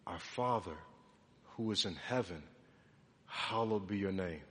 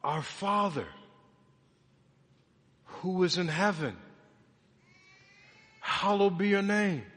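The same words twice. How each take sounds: First: Low, hushed recitation; reverent prayer. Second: Measured recitation with long pauses between phrases; proclaimed prayer. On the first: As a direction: pray it softly and reverently. Quietly reciting the Lord's Prayer. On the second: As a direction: declare each phrase clearly, letting it stand. Proclaims the same prayer lines again. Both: Acted.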